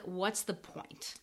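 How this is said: It sounds negative and dismissive. It implies there is really no point. "it kind of like implies that there's really no point"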